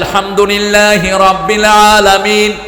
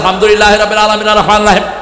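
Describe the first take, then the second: First: It is recited at a normal pace. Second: It is recited very fast, rushing.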